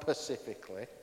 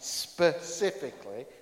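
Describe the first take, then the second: First: The word begins with a p sound. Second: The word begins with an s sound. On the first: The speaker calls it wrong. "not pacifically" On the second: The speaker calls it right. "I did say that right, specifically"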